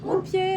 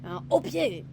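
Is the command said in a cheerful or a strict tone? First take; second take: cheerful; strict. First: The command sounds cheerful and upbeat. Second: The command sounds strict and abrupt. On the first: The dog is more eager to come. The speaker calls it right. "avec un petit ton enjoué" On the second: The dog may feel uneasy. The speaker calls it wrong. "des intonations très strictes"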